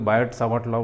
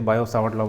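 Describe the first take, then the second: First: The t at the end of Biot is pronounced. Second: The t at the end of Biot is silent. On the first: The speaker calls it wrong. "बायोट मत बोल देना" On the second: The speaker calls it right. "टी silent रहता है"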